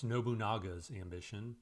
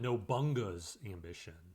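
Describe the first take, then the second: First: The name is said in full, every syllable pronounced. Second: The name is said shortened, with a syllable dropped. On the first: This follows all the letters of the name. The speaker calls it right. "seeing there are some letters in there, um, it's Nobunaga's Ambition" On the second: This is how it was said in childhood. The speaker calls it wrong. "I always called it Nobunga's Ambition"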